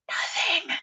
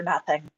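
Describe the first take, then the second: First: "Nothing" breathed out in a soft whisper; hushed, unvoiced "Nothing"; whispered repeat. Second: Said in the usual way. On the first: Real, not acted. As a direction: whisper the word "Nothing" for dramatic effect. Repeated word, drops to whisper.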